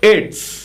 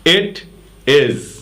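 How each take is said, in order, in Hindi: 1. दोनों शब्द मिलकर एक छोटे अक्षर में बोले जाते हैं। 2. दो अलग-अलग पूरे शब्द बोले जाते हैं।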